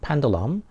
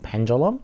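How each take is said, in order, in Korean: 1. 가운데 자음은 'd' 소리처럼 들려요. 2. 가운데 자음은 'j' 소리처럼 들려요. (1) "드 발음으로 이제 그냥 있는 그대로 하면 드 발음도 되고" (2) "미국식으로 하면 이게 즈, 를 즈 발음으로 하고"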